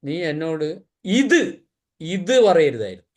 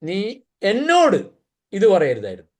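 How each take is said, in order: First: The stress falls on the word ഇത്. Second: The stress falls on the word എന്നോട്. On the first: It matters that this particular thing was said. "ഇത് പറഞ്ഞതാ പ്രശ്നം" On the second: It matters that it was said to me. "എന്നോട് പറഞ്ഞുകൊണ്ടാ പ്രശ്നം"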